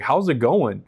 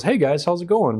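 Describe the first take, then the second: First: Raised-pitch mock echo of a greeting; incredulous echo. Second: High, chirpy mock hello; imitated breezy greeting. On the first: Rescued rowers answering their president's greeting, retold incredulity. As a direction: throw the question back in disbelief. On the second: Organization president greeting rescued rowers by phone, imitated breeziness. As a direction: mimic an oblivious, cheery caller.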